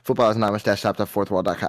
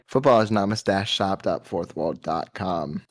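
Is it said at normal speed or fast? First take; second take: fast; normal speed. First: It is said quickly. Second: It is said at a normal speed.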